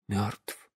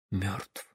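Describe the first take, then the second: First: Very soft, low numb repeat; stunned whisper. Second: Very soft, low stunned word; stunned whisper. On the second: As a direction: breathe it out in shock. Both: Acted. Father shocked by son's death.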